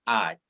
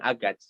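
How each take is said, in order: First: No g sound is pronounced in the middle. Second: A g sound is pronounced in the middle. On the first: The speaker calls it right. "G-nya tidak dibaca" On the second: The speaker calls it wrong. "bukan agat"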